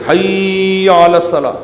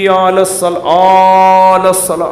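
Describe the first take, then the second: First: حی علی الصلاح chanted slowly, stretch only on صلاح; correct azan phrase. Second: علی الصلاح dragged very slowly, then trailing off; wrong stretched azan. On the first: Shown as a demonstration. Preacher demonstrating the proper azan phrase, measured chant. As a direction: keep حی short, lengthen الصلاح. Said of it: "حی کو نہیں کھینچ سکتے". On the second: Retold or imitated. Preacher imitating careless muezzins, slow overdrawn chant. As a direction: mimic people who stretch the wrong syllable. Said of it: "لوگ کیا کریں، حی".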